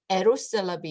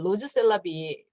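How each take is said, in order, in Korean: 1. 이 이름은 'Eros'처럼 들리는 소리로 시작해요. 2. 이 이름은 'Rose'처럼 들리는 소리로 시작해요. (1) "알 발음을 하는 게 아니라 엘 발음을 해요" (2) "발음 그대로 읽으면 로즈셀라비"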